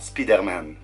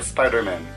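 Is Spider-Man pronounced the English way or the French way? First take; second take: French; English. First: The word has a French-style pronunciation. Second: The word has an English-like pronunciation. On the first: The speaker calls it wrong. "et non Spider-Man" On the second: The speaker calls it right. "on va dire Spider-Man"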